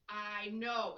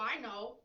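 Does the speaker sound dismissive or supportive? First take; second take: supportive; dismissive. First: A warm tone that drops lower at the end. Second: A flat, monotone delivery that cuts things off. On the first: I understand you and I'm here for you. "it gets a little bit lower. ... So that is supportive" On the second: I already know that, so stop talking. "it's straight, right? It's monotone"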